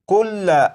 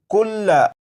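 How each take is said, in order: First: The word ends with an open 'a' vowel. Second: The word ends with an open 'a' vowel.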